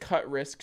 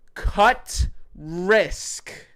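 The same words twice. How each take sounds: First: It is said at normal, quieter volume. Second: It is said more loudly.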